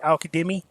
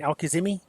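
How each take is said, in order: First: The middle consonant is a D sound. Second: The middle consonant is a Z sound. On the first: The speaker calls it right. "It's with the D" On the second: The speaker calls it wrong. "I was saying Alkazimi"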